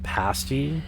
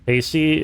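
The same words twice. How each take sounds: First: The first vowel is a short A. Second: The first vowel is a long A. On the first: It names a British pastry. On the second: It means like paste.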